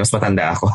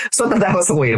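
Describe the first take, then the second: First: Said in the usual way. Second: High, laughing breath still in it; giggly, just out of a laugh; after laughing hard. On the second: Real, not acted.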